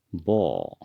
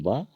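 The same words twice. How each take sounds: First: "बो" with a rounded o; Assamese pronunciation. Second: "ब" with an open a vowel; Hindi pronunciation. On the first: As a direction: say "बो" the Assamese way, o instead of a. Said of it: "असमिया में". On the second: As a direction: say "ब" the Hindi way, ending in a. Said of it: "Hindi में ब". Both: Shown as a demonstration.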